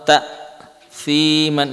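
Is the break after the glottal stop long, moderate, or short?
long. The break after the glottal stop is very long. "ini terlalu lama"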